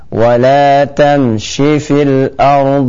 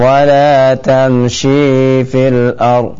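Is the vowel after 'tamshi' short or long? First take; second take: short; long. First: The vowel before 'fil' is kept short. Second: The vowel before 'fil' is drawn out long. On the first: The speaker calls it right. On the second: The speaker calls it wrong. "Bukan wala tamshi fil ard, ya keliru ya"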